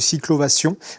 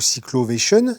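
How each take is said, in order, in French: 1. Le nom se prononce à la française. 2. Le nom se prononce à l'anglaise.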